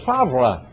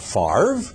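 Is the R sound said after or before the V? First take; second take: after; before. First: The R sound comes after the V. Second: The R sound comes before the V. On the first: The speaker calls it right. "No, it's Favre" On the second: The speaker calls it wrong. "Not Favre, nonsense. ... you take the R and stick it in front of the V?"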